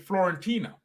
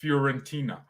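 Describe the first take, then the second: First: "Florentina" with a clear L after the F; pronounced with L. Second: "Fiorentina" with a y-glide after the F; pronounced without L. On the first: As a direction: say "Florentina" as flor-en-TEE-na. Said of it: "That's an L, right?". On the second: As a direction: say "Fiorentina" as fyor-en-TEE-na, no L. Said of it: "It's not Fior". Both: Shown as a demonstration.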